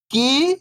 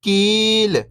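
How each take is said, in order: First: First syllable lifting, pause, second falling. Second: Whole word, level then falling at the end; syllables blended. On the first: Teacher breaking a word down for beginning readers, syllable by syllable. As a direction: sound out each syllable alone, long and separated. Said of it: "एक अक्षर का उच्चारण करके". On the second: Teacher showing beginners the joined word, syllables blended. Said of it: "तो मिलके बन जाएगा". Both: Shown as a demonstration.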